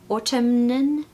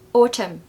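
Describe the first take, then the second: First: The word ends with an N sound. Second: The word ends without an N sound. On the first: The speaker calls it wrong. "Have you been saying autumn?" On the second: The speaker calls it right. "There's no N"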